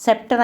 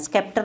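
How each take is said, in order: First: Scepter said as septer, no k sound; silent c. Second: Scepter said with a hard k, skepter; wrong pronunciation. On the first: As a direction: keep the c in Scepter silent, just s. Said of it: "അവിടെയും സി silent ആണ്". (Scepter എന്ന വാക്ക് 'സെപ്റ്റർ' എന്ന്, സി silent ആക്കി) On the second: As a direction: sound the c in scepter as a k. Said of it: "scepter എന്ന് pronounce ചെയ്യരുത്". (scepter എന്ന വാക്ക് 'സ്കെപ്റ്റർ' എന്ന് k ഉച്ചരിച്ച്) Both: Shown as a demonstration.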